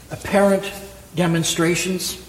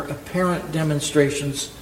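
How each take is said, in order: First: Said in the usual way. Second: Apparent leaned on, set apart from demonstrations; stress on apparent. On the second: Shown as a demonstration. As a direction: give the word apparent the weight. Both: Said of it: "Let me emphasize the word apparent there".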